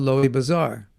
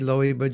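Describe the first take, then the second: First: Bazaar is said with a clear z sound. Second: Bazaar is said without any z sound.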